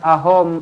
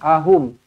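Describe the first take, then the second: First: The last vowel sounds like 'o'. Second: The last vowel sounds like 'u'. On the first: The speaker calls it wrong. "Bukan ahom" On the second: The speaker calls it right. "pastikan kita baca betul-betul ahum"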